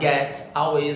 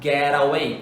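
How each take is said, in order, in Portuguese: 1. O t é falado por completo, e as palavras ficam separadas. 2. O t vira um som leve de r que liga as palavras. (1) "Você não vai falar get away" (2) "com aquele Rzinho ali juntando entre a consoante e a vogal"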